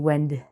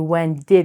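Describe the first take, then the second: First: The d sound is quick and barely heard. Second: Both words are said fully and separately. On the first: The speaker calls it right. "we say when did" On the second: The speaker calls it wrong. "We don't say when did"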